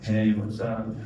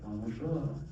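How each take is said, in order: First: It is said in a relaxed, casual tone. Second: It is said in a bright, chipper tone.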